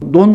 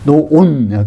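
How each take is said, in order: First: The vowel is said short. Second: The vowel is drawn out long. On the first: The word is singular. "논 하면은 단수예요" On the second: The word is plural. "좀 길게 발음하면은"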